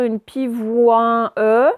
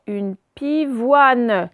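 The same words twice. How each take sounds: First: "une pivoine E" with a separate E sounded at the end; wrong reading. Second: "une pivoine" read slowly as pi-vwan, the E silent; slow, careful "pivoine" with no final vowel; correct reading. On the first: Teacher to pupils showing the wrong reading: sounded E. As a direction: read "pivoine E", sounding the final E as its own syllable. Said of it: "On va pas dire". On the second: Teacher to pupils showing the right reading: slow, careful. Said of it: "donc ça fait". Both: Shown as a demonstration.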